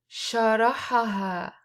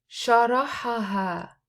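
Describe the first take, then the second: No difference in how they are said.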